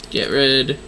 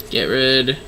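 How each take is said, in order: Both takes have the same delivery.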